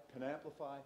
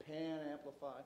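Both takes have the same delivery.

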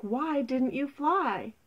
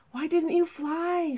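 First: Slow, deliberate "why didn't you fly", pitch up then falling; insistent question. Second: High, urgent question; distressed cry. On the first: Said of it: "asked the snake". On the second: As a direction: cry it out, pitched well up. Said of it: "she cried". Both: Acted.

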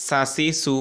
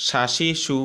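First: সাসিসু said with a thin, light s, carefully slow; thin s sound. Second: শাশিসু said with a clear sh on the first two syllables; sh sound. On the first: Teacher to students, contrasting sa with sha: thin s sound. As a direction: say সাসিসু with a plain s, not sh, drawn out. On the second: Teacher to students, contrasting sha with sa: sh sound. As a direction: shape শাশিসু with sh, sh, then s. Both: Shown as a demonstration. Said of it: "ডিফারেন্সটা বুঝতে পেরেছেন?".

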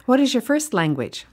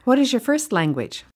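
The two takes are said the same way.

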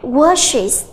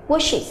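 First: Washes said slowly with a clear iz ending; slow model of washes; ending pronounced. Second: Washes repeated softly with an iz ending; quiet echo of Washes; soft model repeat; ending pronounced. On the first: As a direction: stretch out washes to show the iz. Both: Shown as a demonstration. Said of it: "chúng ta sẽ đọc là washes".

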